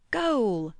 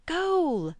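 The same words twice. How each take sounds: First: Shout. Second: A much higher, louder yell of Goal!; shrill game cry Goal!; high excited shout. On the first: Boys shouting in a game. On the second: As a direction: scream Goal! in triumph. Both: A narrator's reading.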